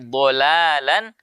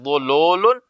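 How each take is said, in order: First: The L is pronounced light and thin. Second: The L is pronounced heavy and thick. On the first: The speaker calls it right. "tapi dholalan mubina" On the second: The speaker calls it wrong. "jangan baca dhololun"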